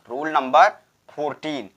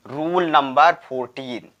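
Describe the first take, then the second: No difference in how they are said.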